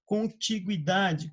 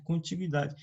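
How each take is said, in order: First: "Contiguidade" said very slowly, every syllable clear; slow careful pronunciation. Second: Said in the usual way. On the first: Shown as a demonstration. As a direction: spell out "Contiguidade" by sound. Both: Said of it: "Perceba que a pronúncia não mudou?".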